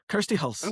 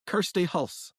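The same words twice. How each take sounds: First: Name in a broader Scottish accent; Kirsty Hulse with thicker Scottish vowels. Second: Name said in a light Scottish accent; Kirsty Hulse in a mild Scottish lilt. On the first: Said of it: "a bit more". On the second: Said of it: "can you say my name for me". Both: Shown as a demonstration.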